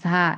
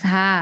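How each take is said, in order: No difference in how they are said.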